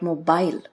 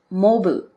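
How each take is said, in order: First: It is said with a British pronunciation. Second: It is said with an American pronunciation. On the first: "but mobile in British" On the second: "mobile is pronounced mobile in American English"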